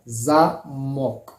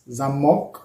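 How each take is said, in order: First: The stress is on the first syllable. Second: The stress is on the second syllable.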